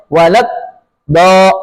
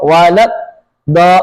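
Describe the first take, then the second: Both takes have the same delivery.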